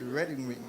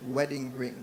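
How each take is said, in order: First: "wedding ring" said as "redding ring". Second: Said in the usual way. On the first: Real, not acted. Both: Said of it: "I can't do the W's and R's".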